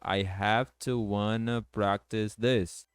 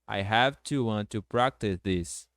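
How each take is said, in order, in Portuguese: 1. 'Want' e 'to' se juntam e viram 'wanna'. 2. 'Want' e 'to' são pronunciados como palavras separadas.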